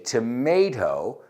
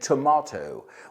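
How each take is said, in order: First: It is said in an American accent. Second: It is said in a British accent. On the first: "We say tomato" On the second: "los británicos dicen tomato"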